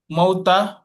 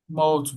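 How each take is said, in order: First: The word ends with an added vowel. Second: The word stops on the final consonant. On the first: The speaker calls it wrong. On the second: The speaker calls it right.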